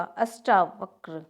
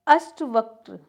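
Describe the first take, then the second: First: अष्टावक्र with long "aa", slow; correct form. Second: अष्टवक्र with short "a" before "va"; incorrect form. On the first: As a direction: say अष्टावक्र as "ashtaa-vakra". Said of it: "इस तरह से होगा". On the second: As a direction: say अष्टवक्र as "ashta-vakra". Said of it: "नहीं, अष्ट इस तरह से होगा". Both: Shown as a demonstration.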